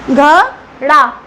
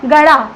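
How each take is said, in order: First: घड़ा drawn out very slowly with a breathy gh; correct sound demo. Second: गड़ा with a plain g, not breathy gh; wrong sound demo. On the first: Teacher showing pupils the right way: slow, breathy घड़ा. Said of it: "ये ऐसे सही है ना". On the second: Teacher showing pupils the wrong way: गड़ा with plain g. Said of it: "सही sound नहीं कर रहा". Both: Shown as a demonstration.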